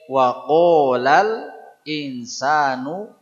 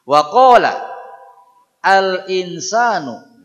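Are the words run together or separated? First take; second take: joined; separated. First: The words are linked without a break. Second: The words are cut apart at the hamzah.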